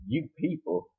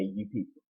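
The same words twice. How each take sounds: First: Questioning echo. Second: Low, soft retold "you people"; retold remark. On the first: Retold or imitated. Bush Queen repeating the words back, questioning. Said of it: "And then the Bush Queen's like". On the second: Quoting what she just had to say, dismissively. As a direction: slip it in low and quietly. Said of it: "She just had to say".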